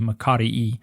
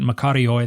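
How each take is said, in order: First: The ending is said with an 'ee' vowel sound. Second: The ending is said with an 'oi' vowel sound. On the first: "In modern Greek, it would be" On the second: "that's following the Erasmian pronunciation"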